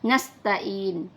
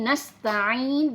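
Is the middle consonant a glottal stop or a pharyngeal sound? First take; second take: glottal stop; pharyngeal. First: The middle consonant is a plain glottal stop. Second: The middle consonant is a throaty pharyngeal sound. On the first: The speaker calls it wrong. "jangan sampai kita membaca nasta'in" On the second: The speaker calls it right. "Di situ nasta'in ada huruf ain, bukan huruf hamzah"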